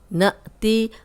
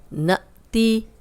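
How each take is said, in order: No difference in how they are said.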